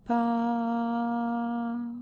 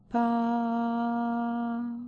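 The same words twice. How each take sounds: First: The syllable is said on a high pitch. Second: The syllable is said on a high pitch.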